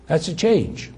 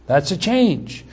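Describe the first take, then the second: No difference in how they are said.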